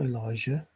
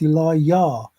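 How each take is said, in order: First: The name is said with a J sound. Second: The name is said with a Y sound. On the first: The speaker calls it wrong. "A J that has people saying ... even Elijah. It's not Elijah" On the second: The speaker calls it right. "it's Elijah. ... Elijah, no J"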